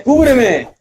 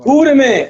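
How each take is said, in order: First: High urgent repeated yell; cover me shout again. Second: High urgent shout for cover. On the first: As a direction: call for cover, still pressed. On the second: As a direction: yell it to your squad mid-fight. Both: Real, not acted. Gaming, calling teammates for cover.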